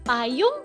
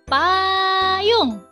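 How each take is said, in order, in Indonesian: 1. Bunyi pertama diucapkan biasa saja. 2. Bunyi pertama ditekankan kuat. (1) "Jangan kita bilangnya cuma payung" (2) "yang jelas"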